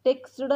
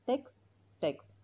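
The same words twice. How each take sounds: First: टेक्स्टड with a wrong ed ending; wrong texted. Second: टेक्स्ट with no ed; correct text. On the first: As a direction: example of what not to say. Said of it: "टेक्स्टड नाही बोलायचं". (चुकीचा उच्चार: टेक्स्टड) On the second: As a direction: say टेक्स्ट, ending on t. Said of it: "टेक्स्टचा उच्चार टेक्स्टच करायचा". (बरोबर: टेक्स्ट) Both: Shown as a demonstration.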